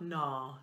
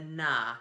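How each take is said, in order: First: The sound is dark and placed low in the throat. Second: The sound is bright and placed forward in the head. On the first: The speaker calls it wrong. "not down there in our throats" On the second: The speaker calls it right. "head voice coming right out of our eyes or our forehead"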